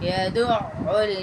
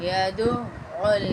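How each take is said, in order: No difference in how they are said.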